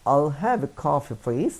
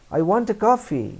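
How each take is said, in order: First: Slow, gentle polite request. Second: High, loud blunt demand; blunt demand demo. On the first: Teacher shows the polite way to order coffee. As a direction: ask for it politely, slowly. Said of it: "আপনি বলবেন". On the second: Teacher shows the rude way to order coffee. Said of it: "না বলে আপনি বলবেন". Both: Shown as a demonstration.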